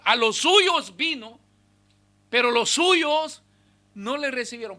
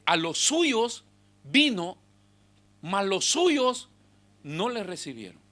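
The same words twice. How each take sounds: First: Emphatic slow scripture, louder. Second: Slow scripture reading. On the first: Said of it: "pero no quieren rendirse". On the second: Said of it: "Por eso es que Juan escribe y dice". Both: Shown as a demonstration.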